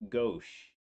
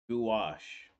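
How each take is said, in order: First: The word begins with a plain 'go' sound. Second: The word begins with a 'gwa' sound. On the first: The speaker calls it wrong. "I hate that I'm gonna say this word wrong" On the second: The speaker calls it right. "I don't know why I keep going go"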